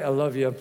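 The words sound flat and dismissive. The speaker does not really mean it. The speaker calls it wrong. "I can be like, I love you. No, you don't"

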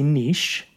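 It is said the French way.

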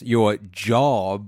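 It is said with a sarcastic, air-quote tone. "You could if I said it like this"

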